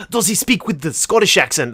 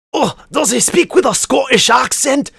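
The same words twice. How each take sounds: First: Said in the usual way. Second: High, loud put-on Scottish accent. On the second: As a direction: slip into a hammed-up Scottish lilt. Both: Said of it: "I kinda did a Scottish accent".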